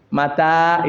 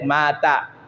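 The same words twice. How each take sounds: First: The first vowel is short, the second long. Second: The first vowel is long, the second short. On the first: It means when. "Panjangnya beda, artinya beda" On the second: It means he died. "Ma-nya panjang, tanya pendek"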